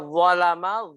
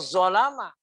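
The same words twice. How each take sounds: First: The word starts with a heavy dh sound. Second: The word starts with a plain z sound. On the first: The speaker calls it right. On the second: The speaker calls it wrong. "tapi dibaca zalama"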